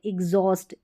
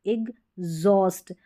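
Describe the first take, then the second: First: Said in the usual way. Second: एग्जॉस्ट in two slow parts with a voiced G; broken at the G. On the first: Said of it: "ग करके pronounce कर दे". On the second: Shown as a demonstration. Teacher showing the hidden G sound, slowly split एग्जॉस्ट. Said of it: "यहाँ पर ग करके pronounce".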